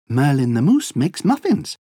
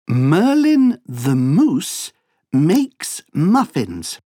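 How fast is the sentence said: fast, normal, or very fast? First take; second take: fast; normal. First: The sentence is said at a fast pace. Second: The sentence is said at a normal pace. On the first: "Allez plus vite" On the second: "Écoute bien cette phrase"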